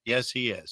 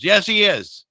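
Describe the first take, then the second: First: Said in the usual way. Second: Loud, high-pitched comeback; emphatic retort. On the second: Acted. Host answering an imagined objector, loudly emphatic. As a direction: answer back with playful force.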